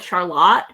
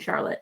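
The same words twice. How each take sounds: First: It is said the local Michigan town way. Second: It is said the usual first-name way. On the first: It names the town in Michigan. "but we call it Charlotte" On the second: It names a person. "like the name Charlotte"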